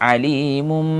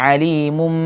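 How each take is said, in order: No difference in how they are said.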